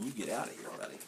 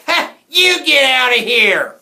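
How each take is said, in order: First: Very soft, offhand retelling; quiet aside. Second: Slow, very loud, high holler; angry yell. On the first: Retold or imitated. Reader explains the picture to listeners, speaking softly. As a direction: murmur the yelled line gently. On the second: A narrator's reading. Jack snaps back at the hecklers, yelling angrily. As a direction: yell back with full force. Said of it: "He rolled around and yelled".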